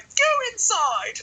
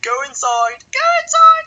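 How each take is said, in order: First: Much higher and slow, drawn-out order; mock stern teacher. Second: Much higher, much louder rising screech; mock shrieking teacher. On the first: Teacher sending him inside, slow high mock order. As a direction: stretch it out like a shrill teacher's command. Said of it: "And then she's like". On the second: Teacher ordering him indoors, hammed-up screech. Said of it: "It's like".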